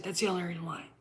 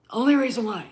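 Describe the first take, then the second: First: Said in the usual way. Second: "Only" punched higher and louder; emphatic repeat. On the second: Shown as a demonstration. Ranting at fans who only like Mara Jade, louder emphatic repeat. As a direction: hammer home "Only reason why".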